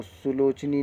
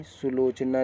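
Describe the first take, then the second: First: सुलोचनी ending in a long "nee"; the mistaken ee-ending in सुलोचनी; wrong ending. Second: सुलोचना ending in a long "naa"; aa-ending in सुलोचना, not ee; correct ending. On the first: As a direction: finish सुलोचनी on ee. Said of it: "सुलोचनी नहीं". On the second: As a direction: finish सुलोचना on aa. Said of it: "सुलोचना लिखेंगे". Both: Shown as a demonstration.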